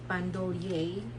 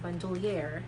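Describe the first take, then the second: First: It is said with a French accent. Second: It is said with an American accent. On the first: "if you pronounce it in French" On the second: "if you pronounce it in American English"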